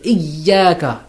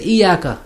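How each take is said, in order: First: The y sound is doubled and held longer. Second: The y sound is short and single. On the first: The speaker calls it right. "So you should emphasize the ya mushaddad" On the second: The speaker calls it wrong. "people say iyaka"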